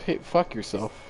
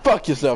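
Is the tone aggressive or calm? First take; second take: calm; aggressive. First: It is said calmly. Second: It is said aggressively.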